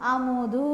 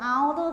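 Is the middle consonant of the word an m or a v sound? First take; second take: m; v. First: The word is said with an m sound. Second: The word is said with a v sound. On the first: The speaker calls it right. "అది అముదు" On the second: The speaker calls it wrong. "పలకడం చేత కాని వాళ్ళు నెయ్యి ఆవుదు అంటారు. ఆవుదు కాదు"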